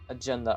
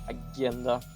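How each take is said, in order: First: The g is said the English way. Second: The g is said the Swedish way. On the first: The speaker calls it right. "it does actually is agenda" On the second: The speaker calls it wrong. "a part of my Swedish is like G"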